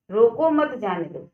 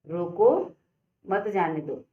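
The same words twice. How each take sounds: First: "रोको मत जाने दो" run together without a break; no pause. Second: Rising "रोको", pause, falling "मत जाने दो"; pause after रोको. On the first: Teacher showing the unclear third sentence, no pause in "रोको मत जाने दो". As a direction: say "रोको मत जाने दो" in one falling sweep. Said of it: "ये जो हमारा तीसरा वाला है". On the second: Teacher showing the comma's meaning, pause after "रोको". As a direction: break after "रोको", then "मत जाने दो" together. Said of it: "यानी कि उसको रोक लो". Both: Shown as a demonstration.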